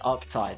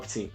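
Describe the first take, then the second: First: The word ends with a clear 'tide' sound. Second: The word ends with a short 'to' sound. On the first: The speaker calls it right. "That makes sense" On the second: The speaker calls it wrong. "Not up to"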